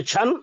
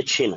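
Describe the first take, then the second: First: छन said with a short a, as chhan; छन pronounced chhan, the mistaken form; wrong reading chhan. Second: छिन said with a short i, as chhin; छिन pronounced chhin, not chhan; right reading chhin. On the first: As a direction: read छन wrongly with zabar, an a sound after chh. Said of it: "अगर हम छन पढ़ देंगे तो गलत हो जाएगा". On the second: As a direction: read छिन with zer, an i sound after chh. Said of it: "ये छन नहीं है". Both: Shown as a demonstration.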